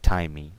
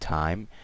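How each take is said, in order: First: The word ends with an extra vowel sound. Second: The word ends cleanly on the M sound. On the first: The speaker calls it wrong. "not timey" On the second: The speaker calls it right. "so time"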